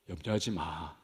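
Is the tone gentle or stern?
gentle. It is said softly and soothingly. It is a comforting reassurance. The speaker calls it wrong. "부드럽게 얘야 염려하지 마, 괜찮아 괜찮아, 이런 뉘앙스가 아닙니다"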